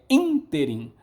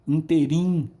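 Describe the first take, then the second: First: The stress falls on the first syllable. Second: The stress falls on the second syllable. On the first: The speaker calls it right. "é ínterim" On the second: The speaker calls it wrong. "não é interim"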